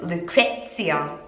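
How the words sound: The name is said with an English pronunciation. "In English, I don't know how it would sound, like"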